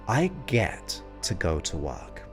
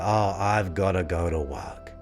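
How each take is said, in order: First: It sounds upbeat and grateful. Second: It sounds gloomy and burdened.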